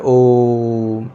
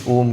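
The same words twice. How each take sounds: First: ओम held long on one steady, level note; prolonged OM. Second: Said in the usual way. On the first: Shown as a demonstration. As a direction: stretch the ओ in ओम right out. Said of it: "उच्चारण में समय लगता है". (ओम को लंबा खींचकर) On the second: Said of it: "जो थोड़ा लंबा खींचे".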